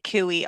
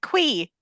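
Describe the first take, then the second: First: The word is said with two syllables. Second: The word is said with one syllable. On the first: "I pronounced it cooey also when I'm reading it" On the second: "they pronounce it quee"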